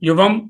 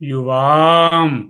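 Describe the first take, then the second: First: The second vowel is short. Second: The second vowel is long. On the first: The speaker calls it wrong. "యువం కాదు" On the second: The speaker calls it right. "దీర్ఘాలుంటాయి"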